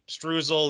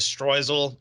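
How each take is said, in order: First: The word is said with an American pronunciation. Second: The word is said with a German pronunciation. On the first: "Americans say streusel" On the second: "The German pronunciation is streusel"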